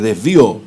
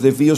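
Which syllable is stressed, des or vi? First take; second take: vi; des. First: The stress falls on the second syllable, vi. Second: The stress falls on the first syllable, des. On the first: The speaker calls it right. "con acento específicamente para que no... no lo pronunciemos mal" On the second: The speaker calls it wrong. "porque no es desvío"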